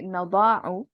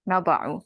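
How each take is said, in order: First: The middle vowel is drawn out long. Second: The middle vowel is short. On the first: The speaker calls it wrong. "you don't prolong the, you don't say" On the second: The speaker calls it right. "you just keep it short like that"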